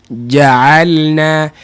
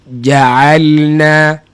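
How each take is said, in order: No difference in how they are said.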